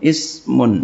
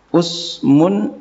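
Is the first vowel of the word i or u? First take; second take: i; u. First: The first vowel is an i sound. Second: The first vowel is an u sound. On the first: "wa kasrah dan kasrahnya" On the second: "bidomil amzati dengan doma hamzah"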